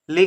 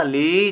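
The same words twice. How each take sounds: First: ली said short and light, "li"; short vowel. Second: ली held long, "leee"; long vowel. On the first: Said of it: "कम देर तक कहा". (ली को हल्का, कम देर तक) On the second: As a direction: stretch out the vowel in ली. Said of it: "ज़्यादा देर तक कहा". (ली को ज़्यादा देर तक खींचकर) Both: Shown as a demonstration.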